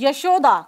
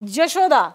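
First: The name begins with a 'y' sound. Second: The name begins with a 'j' sound. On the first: "जैसे word होता है यशोदा" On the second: "अवधि में किसी से बात करेंगे तो वो यशोदा नहीं, जशोदा"

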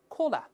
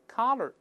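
First: It is said with a British accent. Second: It is said with an American accent. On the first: "英式发音当中" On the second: "美式发音是"

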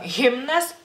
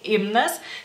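First: The initial h sound is clearly pronounced. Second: The initial h sound is silent. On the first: The speaker calls it right. "sino himnas" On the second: The speaker calls it wrong. "no sería Henrikas ni himnas"

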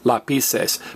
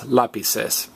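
First: The stress is on the second syllable. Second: The stress is on the first syllable. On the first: This is how it would sound without the accent mark. "If there were no accent mark, we would pronounce this" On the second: This is the word as written with the accent mark. "that accent mark says, hey, don't stress the next to last vowel, stress me"

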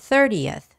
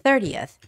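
First: The ending is said with a clear 'yuth' sound. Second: The same.

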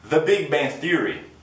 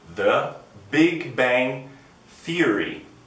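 First: The title is said at a fast pace. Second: The title is said at a slow pace.

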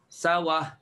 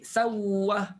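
First: The w sound is single and short. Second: The w sound is doubled and held. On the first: "cuba gambarkan hamzah itu barisnya pindah kepada waw" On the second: "tukarkan hamzah jadi waw dan masuk waw pertama dalam waw kedua"

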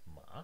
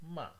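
First: The pitch dips low then rises. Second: The pitch falls from high to low. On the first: "The dipping starts low, goes even lower, and then goes almost all the way up" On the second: "the falling tone starts high and ends all the way down"

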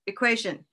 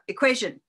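First: The stressed syllable rises in pitch but stays short. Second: The same.

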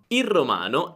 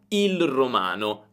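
First: The L of 'il' disappears in fast speech. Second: The L of 'il' is clearly pronounced. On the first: "quando parliamo velocemente... Senti, la L sparisce" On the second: "posso dire il romano, il romano, ma è un po' difficile da dire"

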